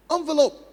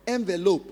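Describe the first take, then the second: First: "Envelope" said as AHN-velope, high and loud; the wrong way: "Envelope" with an AHN opening; wrong pronunciation. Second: "envelope" said as EN-velope, with an EN opening; the right way: "envelope" starting EN; correct pronunciation. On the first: Teacher warning students off a common mispronunciation, AHN-velope said high. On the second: Teacher giving students the correct form, EN-velope. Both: Shown as a demonstration.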